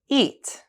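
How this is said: The pitch falls on the word.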